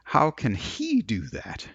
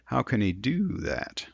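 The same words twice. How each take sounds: First: The stress falls on the word he. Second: The stress falls on the word do. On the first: The question focuses on that particular person. "If I want to focus on him" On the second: It is a neutral question. "I might stress the word do"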